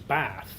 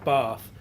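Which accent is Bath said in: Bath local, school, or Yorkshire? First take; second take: Bath local; school. First: Bath is said with a local Bath accent. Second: Bath is said with a boarding-school accent. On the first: This is how people in the city say it. "there's actually a third pronunciation" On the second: This is how the speaker said it after school. "when I uh, left, I was saying Bath"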